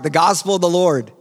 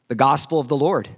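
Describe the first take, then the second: First: It is said with strong, heartfelt energy. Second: It is said plainly, with ordinary energy.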